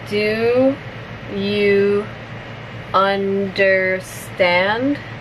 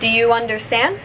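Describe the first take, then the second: First: The phrase is spoken slowly. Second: The phrase is spoken at natural, fast speed. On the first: "I'll say it slowly first" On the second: "one more time at normal speed"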